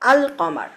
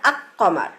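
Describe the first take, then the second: First: The L is clearly pronounced before the K. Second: The L merges into the following K sound. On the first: The speaker calls it right. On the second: The speaker calls it wrong. "আমরা কিন্তু বলি না আক কমার"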